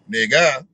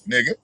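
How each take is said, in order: First: The word ends in an open 'ah' vowel. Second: The word ends in a neutral 'uh' vowel. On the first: "it might be a A H" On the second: "it might be a U H"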